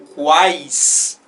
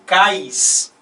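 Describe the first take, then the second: First: The u is sounded; it starts with kw. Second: The u is silent; it starts with plain k. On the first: "e não quais" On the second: "se eu falasse cais, né, e não quais"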